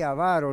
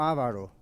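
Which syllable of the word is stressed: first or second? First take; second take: second; first. First: The stress is on the second syllable. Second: The stress is on the first syllable. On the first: The speaker calls it right. "fíjense que dije avaro" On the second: The speaker calls it wrong. "no ávaro"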